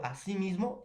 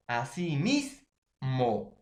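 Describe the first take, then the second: First: Said in the usual way. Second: "Así mismo" very slow, with "mis" held long; stress on MIS. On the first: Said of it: "ya pierde esa fuerza". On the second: Shown as a demonstration. Teacher showing which part keeps the intensity, slow stress on "mis" in "Así mismo". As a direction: break up "Así mismo", leaning hard on "mis". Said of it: "quién va a llevar esa intensidad".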